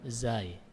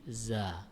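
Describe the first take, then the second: First: The letter name ends with a y glide. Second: The letter name ends on a plain vowel. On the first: The speaker calls it wrong. "Cuma zai saja yang syad, yang ada ya di akhirnya" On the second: The speaker calls it right. "tapi za. Dan ini secara teori lebih benar daripada zai"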